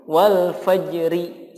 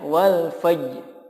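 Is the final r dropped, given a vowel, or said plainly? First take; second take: given a vowel; dropped. First: The final r is followed by a vowel. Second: The final r sound is left out. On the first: "dibaca diharokati" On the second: "Tapi ro-nya enggak ada"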